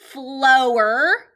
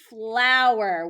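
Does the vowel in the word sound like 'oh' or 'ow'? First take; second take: oh; ow. First: The vowel sounds like 'oh'. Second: The vowel sounds like 'ow'. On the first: The speaker calls it wrong. "L O er" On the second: The speaker calls it right. "l ow er"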